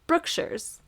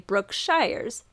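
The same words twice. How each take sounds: First: It uses the local Texan pronunciation. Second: It follows the word's spelling literally. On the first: "which is how everybody pronounces it around here" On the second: "based on the way that it is spelled"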